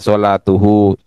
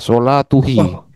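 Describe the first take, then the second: First: The vowels after the t are u then u. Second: The vowels after the t are u then i. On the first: The speaker calls it right. "Maka disesuaikan sholatuhu" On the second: The speaker calls it wrong. "kalau dibaca sholatuhi itu sulit nggak kira-kira?"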